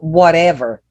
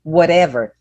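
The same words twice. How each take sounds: First: It is said with an American accent. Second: The same.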